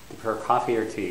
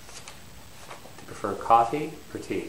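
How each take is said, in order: First: The voice does not rise on coffee. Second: The voice rises on coffee, falls on tea. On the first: It sounds impolite. The speaker calls it wrong. "it doesn't sound particularly polite" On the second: It is the normal polite question. The speaker calls it right. "go up on coffee and then up and down on tea"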